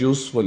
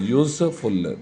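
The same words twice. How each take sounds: First: Said in the usual way. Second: यूज़फुल split into two beats; यूज़फुल divided in two for the class; syllable by syllable. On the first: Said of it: "ये भी दो syllable word". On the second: Shown as a demonstration. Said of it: "दो syllable word है".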